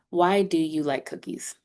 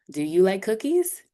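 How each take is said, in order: First: "Why do you like cookies?" settling down on "cookies"; even wh-question, "cookies" let fall; falling intonation. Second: "Do you like cookies?" rising steadily to a high "cookies"; rising intonation. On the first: Teacher giving students a wh-question example, falling at the end. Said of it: "Your intonation will drop". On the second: Teacher demonstrating yes-no intonation to students, rising at the end. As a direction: lift the pitch right through "Do you like cookies?". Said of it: "the intonation goes up". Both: Shown as a demonstration.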